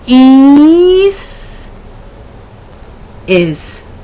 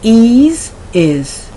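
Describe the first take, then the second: First: The vowels are drawn out and exaggerated. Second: The vowels are short and natural.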